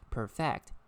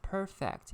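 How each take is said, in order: First: It is pronounced the way the verb is. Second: It is pronounced the way the adjective is. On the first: The word means to make something flawless. "When it is pronounced as perfect, it is a verb" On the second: The word describes something as flawless. "when it is pronounced as perfect, it is adjective"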